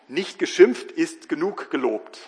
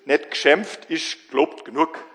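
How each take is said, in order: First: It is spoken in standard High German. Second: It is spoken in a broad Swabian dialect. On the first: "Auf Deutsch" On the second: "oder auf Schwäbisch"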